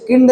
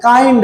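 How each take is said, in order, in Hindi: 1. स्वर छोटी 'i' ध्वनि है। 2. स्वर लंबी 'ai' ध्वनि है। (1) "इसे किंड नहीं पढ़ा सकते हैं" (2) "काइंड है"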